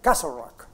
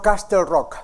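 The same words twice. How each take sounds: First: The T in Castle is silent. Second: The T in Castle is pronounced. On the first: The speaker calls it right. "olvídese de la T. Haga de cuenta que no existe" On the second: The speaker calls it wrong. "no Castle Rock"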